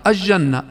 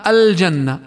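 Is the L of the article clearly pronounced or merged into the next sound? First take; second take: merged; clear. First: The L sound is hidden and merged into the J. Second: The L sound is clearly pronounced before the J. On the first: The speaker calls it wrong. "قد يقرؤونها بلام شمسية فيخفونها" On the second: The speaker calls it right. "ومثلها"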